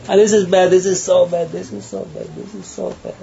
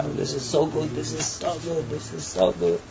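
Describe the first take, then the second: First: Mock disapproval. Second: Soft, hushed repeated approval; mock approval. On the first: People judging everything around them, high mock disapproval. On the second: People judging everything around them, murmured mock approval. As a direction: murmur it over and over, much softer.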